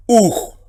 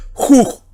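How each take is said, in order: First: "uj" starting straight on oo, ending in a guttural Spanish j; smooth breathing. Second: "juj" with a guttural Spanish j before and after the oo; rough breathing. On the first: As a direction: say "uj" with no breath before the vowel. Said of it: "Así se pronuncia aquello". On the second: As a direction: say "juj" starting on a throaty j. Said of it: "se tiene que leer J guturalmente". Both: Shown as a demonstration.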